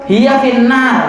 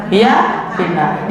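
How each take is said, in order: First: Solemn warning; grave pronouncement. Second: Hiya finnar slowed, falling on hiya; drawn-out Hiya finnar to sink in; slow, deliberate restatement; slow repeat. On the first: Retold or imitated. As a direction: stress on hiya, raised and firm. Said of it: "Kata Rasulullah". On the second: Shown as a demonstration. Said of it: "repeated slowly".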